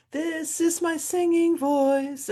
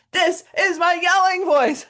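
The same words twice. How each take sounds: First: Much higher, slow, sung; sung slowly on two notes; singing voice. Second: Much higher and louder yell; full demo yell. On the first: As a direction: sing it on clear pitches. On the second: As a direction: shout it out to the whole hall. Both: Shown as a demonstration.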